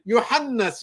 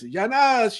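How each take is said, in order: First: The name is pronounced accurately, in full. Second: The name comes out garbled, sounding like 'Yanas'. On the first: It calls one servant by his name. "He's calling his servant, Yohannas" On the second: It sounds like calling out to people in general. "he found it difficult to pronounce the words"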